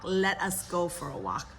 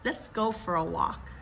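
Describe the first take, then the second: First: It starts with two full separate words. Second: It starts with one short contracted syllable.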